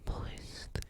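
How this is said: The word is whispered.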